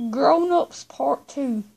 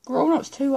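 First: Slow, deliberate, each word apart; slow it right down so the phone gets it; talking slowly to a voice assistant; slow and clear for Siri. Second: Said in the usual way. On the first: Real, not acted.

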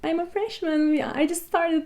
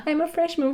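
First: Imitating a put-on British accent, higher and softer; mock British accent she tried as a first-year student; fake British accent. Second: Imitating a put-on British accent, higher pitch; retelling her own try at a posh British accent, pitched up; fake British accent. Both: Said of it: "İngiliz aksanı yapmaya çalışıyorum".

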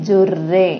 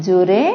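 First: జుర్రే rolled with a held double rr; ఒత్తు on ర, జుర్రే with doubled rr. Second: Said in the usual way. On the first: Shown as a demonstration. Teacher contrasting single and doubled r for class, held rr. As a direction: press the rr in జుర్రే. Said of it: "రేకి రావొత్తుంది". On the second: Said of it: "రే అంటే మొదటిది".

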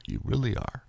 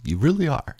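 First: Much softer, high and breaking; almost lose the words to tears; choked quiet tears. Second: Real tears pushing the voice much higher; voice breaking high. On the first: Vlogger repeating thanks to listeners, choked and quiet. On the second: Vlogger telling listeners they matter, voice breaking high. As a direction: let it crack upward as you say it. Tearful thanks, repeated. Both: Real, not acted.

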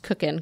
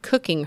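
First: Cookin' said without the final G, ending on n. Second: Cooking said with a clear final -ing G; full G in cooking. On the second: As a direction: pronounce cooking with the full G ending. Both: Shown as a demonstration. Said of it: "There's no G".

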